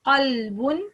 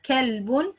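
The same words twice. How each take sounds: First: Qalbun with a heavy back q; QALBUN, dark vowel; heavy qaf. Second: Kalbun with a light front k; KALBUN, fronted vowel; light kaf. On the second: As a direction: keep the k in kalbun thin. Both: Shown as a demonstration. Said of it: "the difference between two meaning".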